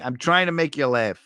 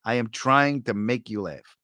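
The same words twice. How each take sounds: First: Said in the usual way. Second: Slow and measured, word by word; deliberate, evenly spaced words. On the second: Real, not acted. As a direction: spell it out slowly. Slower, deliberate repeat of the line.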